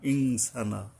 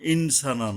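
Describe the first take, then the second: First: It has a nasal ng before the s. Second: It has a clear n before the s. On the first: The speaker calls it right. "নুনের উপরে এখানে অনুস্বর উচ্চারণে উচ্চারণ করতে হবে" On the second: The speaker calls it wrong. "ইনসানা নয়"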